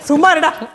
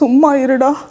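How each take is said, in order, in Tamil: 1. இது வெறுப்பான குரலில் சொல்லப்படுகிறது. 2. இது சோகமான, அழுகை கலந்த குரலில் சொல்லப்படுகிறது. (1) "வெறுப்பா. அருவருப்பு" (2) "அழுதுட்டு. சோகமா"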